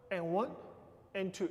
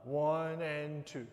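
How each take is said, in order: First: "And one, and two" with quick ands, accent on the numbers; uneven accented count. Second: "one and two" slow, drawn out and evenly weighted; wrong even count. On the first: Teacher counting out an accent for dancers, uneven "And one, and two". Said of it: "It's not even". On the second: Teacher showing dancers how not to count, slow even "one and two". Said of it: "It's not even. It's not". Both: Shown as a demonstration.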